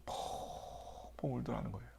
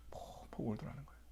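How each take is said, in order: First: 펑펑 울더라는 거예요 said softly and slowly; hushed. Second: 펑펑 울더라는 거예요 fully whispered. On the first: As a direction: drop to a hush. (조용히 낮춘 목소리) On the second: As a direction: let the line fall to a breath. Repeats line in a whisper. (속삭임) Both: Shown as a demonstration.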